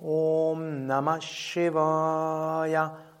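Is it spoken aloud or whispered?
aloud. It is spoken aloud in full voice.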